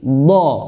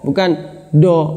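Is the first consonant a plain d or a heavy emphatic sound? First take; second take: emphatic; plain d. First: The first consonant is a heavy emphatic sound. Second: The first consonant is a plain d sound. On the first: The speaker calls it right. "do harus di sini nih" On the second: The speaker calls it wrong. "itu masih seperti dal"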